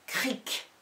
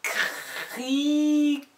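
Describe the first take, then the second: First: Said in the usual way. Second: "Cric" with long R and I, detached final K; drawn-out dictation. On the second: Shown as a demonstration. Teacher dictating the line's last syllable, high and greatly stretched. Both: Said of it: "des dictées de syllabes".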